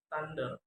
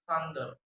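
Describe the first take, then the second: First: "thunder" with t for th; learner's mispronunciation. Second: Said in the usual way. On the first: Shown as a demonstration. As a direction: say "thunder" as "tunder". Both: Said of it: "is pronounced".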